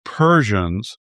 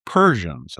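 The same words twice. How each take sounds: First: Said in the usual way. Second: Persians set apart with a falling tune, set off by a pause before it; stress on Persians. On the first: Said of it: "I emphasize that word". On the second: Shown as a demonstration. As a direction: lean on Persians as the key word. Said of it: "I emphasize that word as opposed to Iranian".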